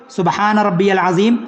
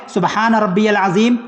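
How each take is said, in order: No difference in how they are said.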